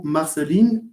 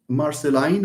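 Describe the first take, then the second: First: Marceline ending in "leen"; Marceline said as "mar-suh-LEEN". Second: Marceline ending in "line"; Marceline said as "mar-suh-LINE". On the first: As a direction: say Marceline with a long ee at the end. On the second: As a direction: say Marceline with an "eye" vowel at the end. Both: Shown as a demonstration. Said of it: "Correct me if I mispronounce this".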